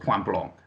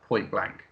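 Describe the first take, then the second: First: The title is said with French pronunciation. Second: The title is said with English pronunciation.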